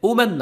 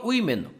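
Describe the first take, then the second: First: The first syllable sounds like "wo". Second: The first syllable sounds like "wi". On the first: The speaker calls it wrong. "ওম্যান না" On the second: The speaker calls it right. "সঠিক উচ্চারণ হচ্ছে উইমেন"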